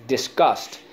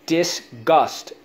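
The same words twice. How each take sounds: First: Said in the usual way. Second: "Disgust" split as dis, gust, pitched up; syllable by syllable. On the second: Shown as a demonstration. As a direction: sound out "Disgust" in two beats. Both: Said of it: "So let's go".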